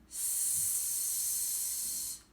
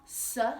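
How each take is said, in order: First: The consonant sound is said alone, no vowel. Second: An uh vowel follows the consonant sound. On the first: The speaker calls it right. "like at the beginning of the word snake" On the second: The speaker calls it wrong. "It's not s. We don't have an uh sound after it"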